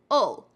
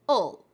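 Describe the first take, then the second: First: The vowel is weak and shortened. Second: The vowel is weak and shortened.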